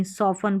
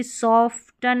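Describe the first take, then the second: First: सॉफन with silent T; correct pronunciation. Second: सॉफ्टन with the T sounded; wrong pronunciation. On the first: Teacher giving the right reading, सॉफन without T. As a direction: say सॉफन, f straight into n. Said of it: "सॉफन पढ़ेंगे". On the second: Teacher showing what not to read, सॉफ्टन with spoken T. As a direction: say सॉफ्टन with a t after f. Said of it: "सॉफ्टन नहीं". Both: Shown as a demonstration.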